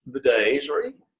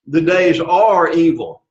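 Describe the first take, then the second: First: Said in the usual way. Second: "are" stressed and drawn out, slow and firm; slow sentence with a weighty, lengthened "are"; emphasis on ARE. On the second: Shown as a demonstration. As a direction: lean hard on the word "are".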